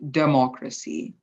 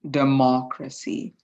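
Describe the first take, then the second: First: The stress is not on the second syllable. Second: The stress is on the second syllable. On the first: "if it was here, for example, it would be" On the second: "The main stress of the word goes within the second syllable"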